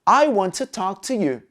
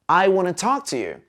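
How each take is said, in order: First: Want to is said in full, clearly separated. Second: Want to is run together quickly as wanna. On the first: "A pronúncia perfeita, ultra clara" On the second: "Pronúncia encurtada, como os nativos falam no dia a dia"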